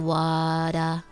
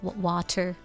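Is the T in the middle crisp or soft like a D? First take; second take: soft; crisp. First: The middle T sounds soft, like a D. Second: The middle T is a crisp, clear T. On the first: "They say wada or something" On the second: "I overpronounce my T's"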